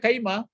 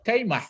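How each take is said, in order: First: The word ends on an open vowel. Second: The word ends with an added breathy h. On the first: This is the word's original form. "Sebenarnya kaima" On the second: This form is allowed when nothing follows. "boleh dipakai"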